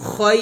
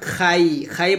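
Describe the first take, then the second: First: The vowel sounds rounded, like 'oy'. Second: The vowel sounds open, like 'ai'. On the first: The speaker calls it right. "খয় বলতে হবে" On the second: The speaker calls it wrong. "Not খাই খাই বলা যাবে না"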